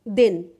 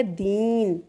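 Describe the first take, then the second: First: दिन with a short, quick इ; short vowel din. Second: दीन with the ई held long; long vowel deen. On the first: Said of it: "एक छोटे से उदाहरण से हम समझते हैं". (छोटी इ के साथ दिन, जल्दी बोला हुआ) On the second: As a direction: stretch the ई in दीन. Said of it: "दिन और दीन बोलने में हमें ज़्यादा टाइम लगा है". (दीन में ई को लंबा खींचकर) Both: Shown as a demonstration.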